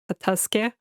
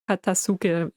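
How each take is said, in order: First: The 'u' vowel is dropped, almost silent. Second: The 'u' vowel is clearly pronounced.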